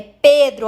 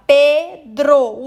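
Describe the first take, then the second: First: Said in the usual way. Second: Pedro slowly split into Pe-dro; syllable by syllable. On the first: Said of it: "olha lá, Pedro". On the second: Shown as a demonstration. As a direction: pause between the two syllables of Pedro. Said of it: "o dro". (Pedro separado em duas sílabas, devagar)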